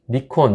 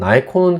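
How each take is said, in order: First: The first syllable sounds like 'nee'. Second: The first syllable sounds like 'nigh'.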